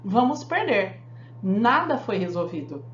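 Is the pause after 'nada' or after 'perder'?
after perder. The pause comes right after the word perder. We will lose because nothing was solved. "no primeiro nós vamos perder porque nada foi resolvido"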